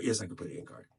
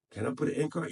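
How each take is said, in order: First: Firm answer, lower and softer; self-assured answer. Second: Wondering question, voice rising at the end; half-asking himself, unsure; wondering aloud. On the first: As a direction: settle it for yourself, falling at the end. Answers his own question. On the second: Asks himself, then answers. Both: Real, not acted.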